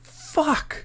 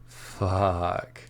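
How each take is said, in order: First: It is said with sudden alarm. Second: It is said with obvious delight. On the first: Some big mistake has happened. "it means probably some big mistake has happened" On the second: Whatever is happening is great. "it means you're enjoying whatever's happening and it's pretty damn awesome"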